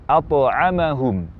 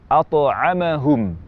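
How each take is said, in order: The two takes are said the same way.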